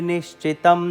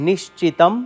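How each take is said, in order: The two takes are said the same way.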